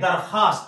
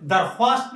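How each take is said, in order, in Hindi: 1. kh की आवाज़ के बाद w की आवाज़ नहीं आती। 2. kh की आवाज़ के बाद w की आवाज़ आती है। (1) "इसको अगर गायब कर दिया जाए तो ये लफ्ज दरख्वास्त नहीं बल्कि दरखास्त बन जाएगा" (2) "जोड़ तोड़ के हिसाब से इस लफ्ज को पढ़ा जाए तो यह दरख्वास्त"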